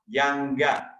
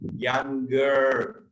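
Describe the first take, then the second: First: It ends in an ah sound with no r. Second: It ends in an er sound with an r. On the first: "if you want to sound like me, go ah" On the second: "If you want to sound like orang America"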